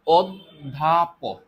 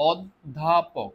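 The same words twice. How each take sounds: First: অধ্যাপক drawn out very slowly and loudly, the দ doubled as দ্ধ; teacher stretching অধ্যাপক so the class hears দ then ধ; slow pronunciation demo. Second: Echoing অধ্যাপক slowly and more gently as reinforcement; slow pronunciation repeat. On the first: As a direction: spell out অধ্যাপক syllable by syllable, loud, leaning on the double দ. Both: Shown as a demonstration. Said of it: "দুইবার উচ্চারণ করি".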